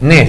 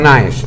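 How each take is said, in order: First: The name is said as a single vowel, Nes. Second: The name is said with an added a, Na-es. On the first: The speaker calls it right. "Nes, no Naes, Nes" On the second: The speaker calls it wrong. "la A no se pronuncia"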